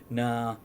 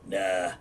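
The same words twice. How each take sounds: First: It is said in his normal voice. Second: It is said in a gruff old-woman voice.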